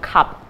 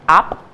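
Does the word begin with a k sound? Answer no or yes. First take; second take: yes; no. First: The word is said with its first consonant. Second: The word is said without its first consonant. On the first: The word is produced as intended. The speaker calls it right. "instead of cap" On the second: A child cannot produce the needed sound. The speaker calls it wrong. "a child says app instead of cap"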